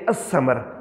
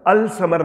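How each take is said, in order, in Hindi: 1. L मौन रहता है; S दोहरा हो जाता है। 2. L, S से पहले साफ़ सुनाई देता है। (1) "हम कहेंगे असमर" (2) "अल समर नहीं कहेंगे"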